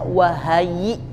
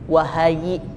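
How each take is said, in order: The two takes are said the same way.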